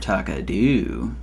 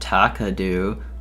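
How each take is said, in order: First: The stress is on the third syllable. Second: The stress is on the first syllable.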